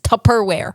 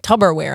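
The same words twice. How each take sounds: First: The middle consonant is a p sound. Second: The middle consonant is a b sound. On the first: The speaker calls it right. "It's Tupperware" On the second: The speaker calls it wrong. "like two B's"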